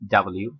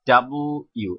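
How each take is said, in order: First: The letter name is said quickly, run together. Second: The letter name is said slowly, in two parts.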